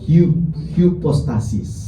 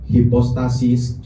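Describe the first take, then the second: First: The first vowel is rounded, between 'oo' and 'ee'. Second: The first vowel is a plain 'ee' sound. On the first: "ucapkan antara U dan I" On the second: "Kalau kita baca I berarti hipostasis"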